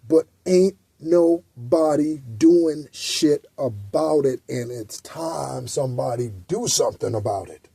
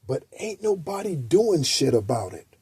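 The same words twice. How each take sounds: First: "ain't" drawn out slowly, each word spaced; slow it right down and lean on "ain't"; slow emphatic repeat. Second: "ain't nobody" said loosely and quietly; slangy ain't nobody. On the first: Repeating the line to viewers, slow and emphatic. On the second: Telling viewers they do nothing, casual slangy "ain't nobody". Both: Shown as a demonstration. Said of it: "I know that's not proper English".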